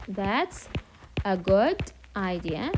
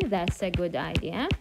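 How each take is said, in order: First: That's, pause, then a good idea said slowly; slow model phrase. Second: Said in the usual way. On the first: Shown as a demonstration. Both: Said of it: "You can say".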